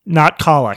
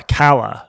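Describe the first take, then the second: First: Kala with open ah vowel, KAH-la; wrong pronunciation of Kala. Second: Kala with short a like pal, KAL-a; right pronunciation of Kala. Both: Shown as a demonstration.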